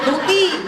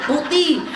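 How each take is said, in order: Both takes have the same delivery.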